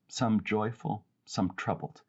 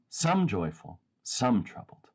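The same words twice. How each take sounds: First: The stress falls on "joyful" and "troubled". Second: The stress falls on each "some". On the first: The contrast is between states of being. The speaker calls it right. "I want to emphasize these two things rather than the some and the some" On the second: The contrast is between groups of people. The speaker calls it wrong. "a very big difference in emphasis if it's some"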